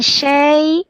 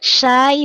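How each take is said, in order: First: The vowel is an 'e' sound. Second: The vowel is an open 'a' sound. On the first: The speaker calls it wrong. "bukan syai" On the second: The speaker calls it right. "dibaca a"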